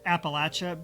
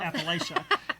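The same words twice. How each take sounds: First: The middle syllable sounds like the word latch. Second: The middle syllable does not sound like latch. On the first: This is how people from the region say it. "tried to switch to t- pronouncing it Appalachia" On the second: This is the habitual way from growing up. "I've always pronounced it"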